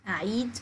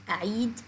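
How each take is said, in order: No difference in how they are said.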